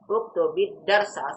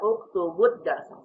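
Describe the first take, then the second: First: The linking vowel after 'uktub' is 'i'. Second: The linking vowel after 'uktub' is 'u'. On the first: The speaker calls it right. "fi'il amr wajib diberikan dengan tanda kasroh" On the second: The speaker calls it wrong. "jangan dibaca uktubud darsa, salah"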